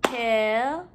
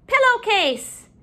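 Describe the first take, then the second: First: Syllable by syllable. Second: Said in the usual way. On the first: Shown as a demonstration. Teacher counting syllables in the word, broken up. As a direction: break "Pillowcase" apart with pauses. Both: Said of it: "break up our syllables".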